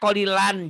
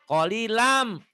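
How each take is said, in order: First: The word ends with a clear n sound. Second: The final n merges into an m sound. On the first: The speaker calls it wrong. "jangan kolilan" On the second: The speaker calls it right. "N-nya masukin ke M. Diidgomkan, dileburkan"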